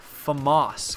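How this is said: The word is said with a put-on foreign accent.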